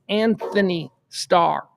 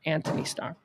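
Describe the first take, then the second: First: The first name is said with a 'th' sound. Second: The first name is said with a 't' sound. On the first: The speaker calls it right. "Your name is Anthony Starr" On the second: The speaker calls it wrong. "not Anthony Starr"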